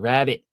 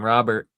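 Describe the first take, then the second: First: It is said in a Boston accent. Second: It is said in a general American accent.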